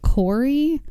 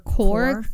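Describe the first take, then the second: First: The name has two syllables, ending in 'ee'. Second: The name has one syllable, with no final vowel. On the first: "I think you would pronounce it Corey" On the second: "or Core"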